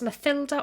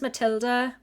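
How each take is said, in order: First: The middle consonant is a th sound. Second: The middle consonant is a plain t.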